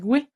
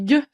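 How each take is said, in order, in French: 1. La syllabe a un son w, comme dans 'gway'. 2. La syllabe est un 'geu' simple, sans w. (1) "Tout le monde dit goué" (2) "ça se dit gueux, c'est la langue française"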